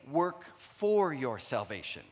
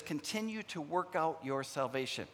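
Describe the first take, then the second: First: Slow, stressing for in Work for your salvation; slow wrong wording. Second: Continue and work out stressed. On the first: Pastor shows what scripture does not say, slow stress on for. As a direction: read the wrong version slowly. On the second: Pastor contrasting scripture wording, stressing Continue. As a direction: lean on Continue as the key. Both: Shown as a demonstration. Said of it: "it doesn't say".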